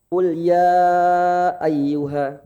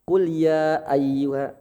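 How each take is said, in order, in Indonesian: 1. Vokalnya dibaca panjang. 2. Vokalnya dibaca pendek. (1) "atau lima" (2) "dua harokat"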